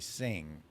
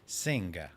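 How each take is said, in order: First: The final G sound is silent. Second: The final G sound is pronounced. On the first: "the G is silent" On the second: "She pronounces G"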